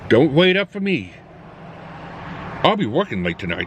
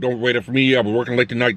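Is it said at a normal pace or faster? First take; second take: normal; faster. First: It is said at a normal speaking pace. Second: It is said at a faster pace.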